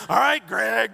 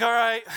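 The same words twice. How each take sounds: First: Cheerful call. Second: Reluctant all right. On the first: Retold or imitated. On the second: Shown as a demonstration. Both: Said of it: "I didn't say it that way".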